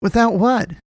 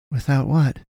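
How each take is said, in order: First: High-pitched, forceful question; insistent. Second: Mildly raised, simple question; asking. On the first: Boy demanding the man finish, insistent. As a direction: demand it much higher and more forcefully. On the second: Boy following up on the man's broken sentence, asking. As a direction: ask it at moderate volume, slightly higher. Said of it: "Kalen asked". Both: A narrator's reading.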